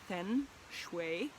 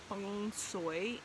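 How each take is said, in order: First: It is said the Mandarin way, with a g sound. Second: It is said the Cantonese way. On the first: "in Mandarin, ... it's Feng Shui, kind of the G gets in there" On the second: "which is also said Feng Shui in um, Cantonese"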